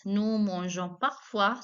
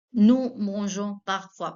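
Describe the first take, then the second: First: Slow, clear repeat of the sentence; teacher repeating slowly; slow model repeat. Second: Slow French model sentence; teacher slowing down the example. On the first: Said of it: "Parfois means". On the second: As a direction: say it slowly for learners. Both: Shown as a demonstration.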